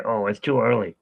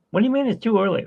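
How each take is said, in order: First: Said in the usual way. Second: Much higher, indignant comeback; incredulous objection. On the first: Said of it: "but then they say". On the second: Acted. Answering Uber who say it's too early, higher incredulous tone. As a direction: throw it back in disbelief, pitched up.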